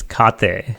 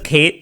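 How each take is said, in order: First: The name is said with its original Indian pronunciation. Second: The name is said like the English name Kate. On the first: This is how the name is properly said. "it's an Indian name. So it, it's it's Kate" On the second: This is how most people say it. "everyone says Kate"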